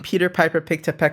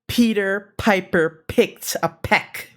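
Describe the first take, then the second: First: The P sounds have no puff of air. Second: The P sounds have a strong puff of air. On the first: The speaker calls it wrong. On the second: The speaker calls it right.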